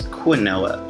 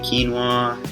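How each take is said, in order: First: The word is pronounced the way it is spelled. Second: The word is pronounced differently from its spelling. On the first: The speaker does not know the usual pronunciation. The speaker calls it wrong. "not even realizing that it's wrong" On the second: The speaker knows the usual pronunciation. The speaker calls it right. "it doesn't necessarily look the same"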